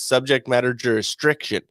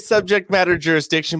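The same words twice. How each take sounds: First: The word is pronounced in a distorted way. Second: The word is pronounced in the standard way. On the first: The speaker calls it wrong. "The way he said is" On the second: The speaker calls it right. "that's the correct way you say it"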